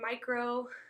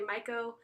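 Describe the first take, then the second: First: It is said with an R sound. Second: It is said without an R sound. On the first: The speaker calls it wrong. "I know I say it wrong. Um, there is no R in micro" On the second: The speaker calls it right. "it's actually myco"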